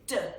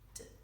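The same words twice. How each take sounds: First: The letter sound is not said purely. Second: The letter sound is said purely. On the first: The speaker calls it wrong. "We don't say D" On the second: The speaker calls it right. "we say D. The sounds have to be pure"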